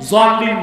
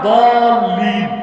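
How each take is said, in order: First: The word begins with a z sound. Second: The word begins with a d sound. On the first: The speaker calls it wrong. "জলিম না। জলিম পড়লে বরং নামাজি হবে না।" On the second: The speaker calls it right. "আসলে উচ্চারণটা দলিম"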